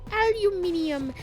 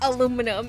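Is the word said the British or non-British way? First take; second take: British; non-British. First: It is said the British way, five syllables. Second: It is said the non-British way, four syllables.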